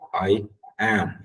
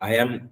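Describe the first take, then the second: First: The two words are clearly separated. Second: The two words are run together. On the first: The speaker calls it right. "make sure the subject is very clearly separated from the auxiliary verb" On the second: The speaker calls it wrong. "ரெண்டையும் சேர்த்து ஒன்றா சொல்லுவாங்க. I am என்று சொல்ல வேணாம்"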